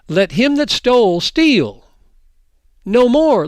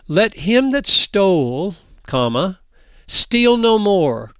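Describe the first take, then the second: First: There is a pause after 'steal'. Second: There is a pause after 'stole'. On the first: A thief should keep stealing. The speaker calls it wrong. "put them in the wrong place and you read it like this" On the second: A thief should stop stealing. The speaker calls it right. "So I'll put in the comma"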